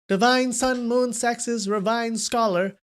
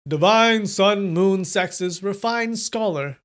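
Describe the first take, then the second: First: It is read in a higher-pitched voice. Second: It is read in a lower, ordinary voice. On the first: The speaker calls it right. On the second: The speaker calls it wrong.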